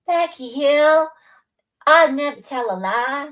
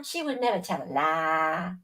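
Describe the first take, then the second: First: Mock prim viewer. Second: Said in the usual way. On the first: Voicing viewer Becky Hill's innocence in a higher put-on voice. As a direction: play the goody-goody swearing she's honest.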